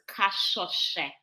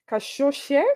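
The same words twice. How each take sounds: First: Kashoshe slowly, with the whistled Shona SV as one sound; correct Shona pronunciation. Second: Kashoshe with a plain sh, tried tentatively; attempted name pronunciation. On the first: Shown as a demonstration. Guest teaching the host her surname, slow correct pronunciation. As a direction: model Kashoshe slowly, syllable by syllable. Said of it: "the trick to saying it is the S V is one syllable".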